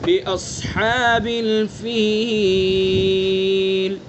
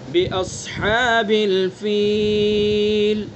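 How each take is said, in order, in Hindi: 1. अंतिम लंबे स्वर को तीन मात्राओं तक खींचा जाता है। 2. अंतिम लंबे स्वर को दो मात्राओं तक खींचा जाता है। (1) "तीन अलिफ" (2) "दो अलिफ"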